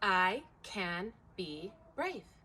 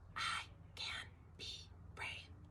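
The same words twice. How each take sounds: First: It is spoken aloud in a normal voice. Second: It is spoken in a whisper.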